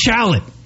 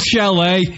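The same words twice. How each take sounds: First: It is read out as spelled, American style. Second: It is said with the French pronunciation. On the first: "if you look at it and you read it in American" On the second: "It's not chalet"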